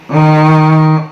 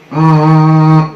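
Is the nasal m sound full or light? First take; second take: light; light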